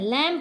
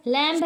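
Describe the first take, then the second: First: लैम्ब said "lam", falling pitch; silent B. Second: लैम्ब with a sounded final B; B pronounced. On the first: Teacher giving the correct reading, लैम्ब with silent B. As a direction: drop the B from लैम्ब. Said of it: "लैम्ब पढ़ते हैं". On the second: Teacher showing learners the mistake, लैम्ब with audible B. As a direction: release the B in लैम्ब. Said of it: "इसमें हम लैम्ब नहीं पढ़ते हैं". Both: Shown as a demonstration.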